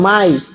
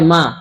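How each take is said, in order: First: It ends in a y glide, mai. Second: It is a single open syllable, ma. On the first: This is how people in another place say it. "অন্য জায়গায় বলেন মাই" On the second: This is how people in this country say it. "আমরা এই দেশে বলা হয় মা"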